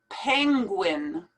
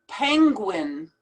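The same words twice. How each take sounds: No difference in how they are said.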